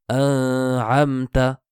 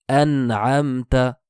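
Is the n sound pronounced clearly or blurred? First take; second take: blurred; clearly. First: The n is blurred rather than clearly pronounced. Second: The n is pronounced clearly before the throat sound. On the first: The speaker calls it wrong. "et non pas ... Ceci sera faux" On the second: The speaker calls it right. "prononcer le noun sakina... de manière claire"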